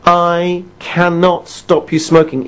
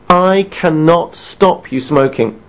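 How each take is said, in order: First: Slow, stress on cannot; emphatic repeat. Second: Slow, weighty, stress on I; emphatic statement. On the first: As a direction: lean hard on cannot. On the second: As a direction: land every word slowly. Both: Shown as a demonstration. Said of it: "I'll say it again".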